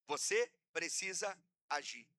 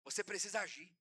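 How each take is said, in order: First: Deliberate, with a pause after each word. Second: Said in the usual way. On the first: Real, not acted. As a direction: spell out VOCÊ, PRECISA, AGIR as separate beats. Repeats it word by word.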